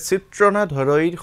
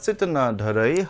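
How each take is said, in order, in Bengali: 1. প্রথম শব্দে 'r' ধ্বনি আছে: chitrana। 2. প্রথম শব্দে কোনো 'r' ধ্বনি নেই: chitana। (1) "মই এটা ভুল উচ্চাৰণ কৰিছিলো" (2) "প্ৰকৃত উচ্চাৰণটো হৈছে চিত্ত বা চিত্তনা ধৰৈ"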